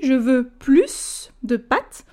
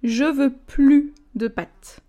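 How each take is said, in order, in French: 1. La dernière S de plus est prononcée. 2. La dernière S de plus est muette. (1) "donc là je prononce le « s »" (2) "quand il est négatif, on ne prononce pas le S"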